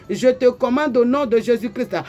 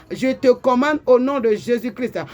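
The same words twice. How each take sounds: No difference in how they are said.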